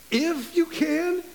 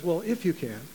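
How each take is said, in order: First: High, slow, rising disbelief; incredulous echo. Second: Said in the usual way. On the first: Retold or imitated. Jesus echoing the father's doubt, incredulous. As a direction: throw the words back in disbelief. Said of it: "I really believe Jesus came back and says". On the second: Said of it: "The Father says".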